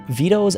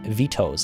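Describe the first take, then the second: First: The T is soft, like a quick D. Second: The T is crisp and clearly released.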